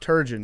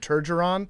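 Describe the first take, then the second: First: It starts with t and has two syllables. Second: An extra syllable with r comes before the end. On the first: The speaker calls it right. "But it's Turgeon" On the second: The speaker calls it wrong. "dads across America either call him Turgeron"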